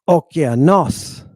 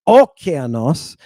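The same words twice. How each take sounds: First: The stress falls on the last syllable. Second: The stress falls before the last syllable. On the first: The speaker calls it right. "It's okeanos. You're putting a little extra time on that syllable where the stress accent is" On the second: The speaker calls it wrong. "It's not okeanos"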